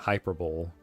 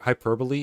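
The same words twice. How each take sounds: First: It is said as spelled, like the Dutch word. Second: It is said with the usual English pronunciation. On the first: "That seems way more logical" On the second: "is pronounced like that in English"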